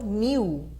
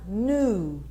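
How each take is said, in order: First: The word starts with a K sound. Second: The word starts with an N sound, no K. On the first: The speaker calls it wrong. "E não knew" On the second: The speaker calls it right. "Lembre-se que o K é mudo"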